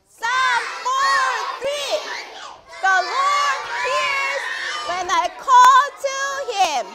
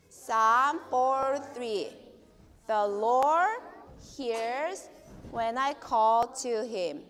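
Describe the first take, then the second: First: It is shouted in a very loud voice. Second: It is said in a normal speaking voice.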